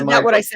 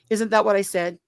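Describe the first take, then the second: First: It is said loudly and agitated. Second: It is said quietly and calmly.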